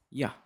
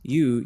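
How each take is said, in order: First: "ya" as a casual, short "yuh"; "ya", a reduced form of you; reduced vowel. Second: "you" with a full oo vowel; "you", unreduced, with a clear oo. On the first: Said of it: "Whether vowel reduction". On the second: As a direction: say "you" in its complete form, "yoo". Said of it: "instead of saying you". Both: Shown as a demonstration.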